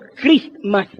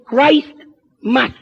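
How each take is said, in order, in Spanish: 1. La palabra se reduce, con la t omitida. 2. La palabra se dice completa como Christ más mass. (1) "más tarde empezaron a pronunciarlo Christmas" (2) "la verdadera pronunciación es Christmas"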